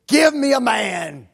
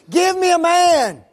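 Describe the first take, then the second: First: Loud, slow bellowed challenge; giant's challenge yell. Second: Much higher, much louder roar; full roaring giant's scream. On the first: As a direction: bellow it slowly across the battlefield. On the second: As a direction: scream the challenge at the top of your voice. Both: Retold or imitated. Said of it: "And he just screams it".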